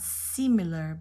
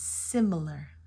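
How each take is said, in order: First: The first vowel is a long E sound. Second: The first vowel is a short I sound. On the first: The speaker calls it wrong. "Not similar" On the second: The speaker calls it right. "You get the short I"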